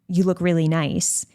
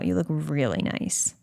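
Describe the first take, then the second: First: It is said in a plain, neutral tone. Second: It is said in a flirtatious, suggestive tone. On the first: It is a simple compliment. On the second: It signals romantic or sexual interest.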